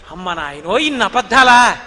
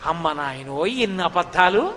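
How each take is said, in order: First: Louder hammed-up shock; mock astonishment. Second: A touch of lower, slower disbelief; mild amazement. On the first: Milkmaid exclaims at Krishna's lies, loud mock astonishment. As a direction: clutch your chest and exclaim. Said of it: "అని ఆవిడ గుండెల మీద ఇలా చెయ్యేసుకోవడంలో". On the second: Acted. Milkmaid stunned by Krishna's lies, mild amazement. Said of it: "అనుకున్న ఆవిడంది".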